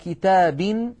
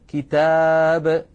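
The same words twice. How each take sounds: First: The word ends with a vowel and an n sound. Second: The word ends on a bare b sound. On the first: "وعلى كتاب" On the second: "حذفوا التنوين ووقفوا بالسكون"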